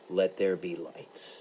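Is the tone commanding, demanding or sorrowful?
commanding. It is said as an authoritative command.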